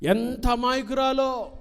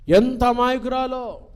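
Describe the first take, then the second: First: Raised, drawn-out ఎంత అమాయకురాలో; high slow mock wonder. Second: ఎంత hit high and loud; louder mock wonder. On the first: Preacher mocking parents' view, high and slow. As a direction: marvel slowly at the daughter's innocence. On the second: Preacher mocking parents' view, louder. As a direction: push the exclamation out louder. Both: Shown as a demonstration. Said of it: "repeated phrase".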